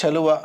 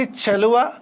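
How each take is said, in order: First: చలువ nearer ts, with falling pitch; sound contrast demo. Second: చలువ with firm palatal ch, pitched up; sound contrast demo. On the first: Teacher contrasting letters for pupils, చలువ nearer ts. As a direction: let చలువ settle on a ts-like start. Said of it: "ఇదేమో చలి". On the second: Teacher showing pupils a letter, చలువ with firm ch. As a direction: stress the opening ch of చలువ. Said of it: "ఇదైతేనేమో చలి అని అంటాము". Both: Shown as a demonstration.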